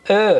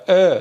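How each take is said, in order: First: "ا" with jaw forward and lips stretched; correct jaw-forward vowel. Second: "ا" said wrongly with the jaw pulled back; wrong jaw-back vowel. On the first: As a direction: say "ا" between e and o, jaw pushed forward. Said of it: "فک میاد جلو". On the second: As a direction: pull the jaw back on "ا" as a faulty example. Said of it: "اینجوری نیست فک بره عقب". («ا» اشتباه، با فک عقب) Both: Shown as a demonstration.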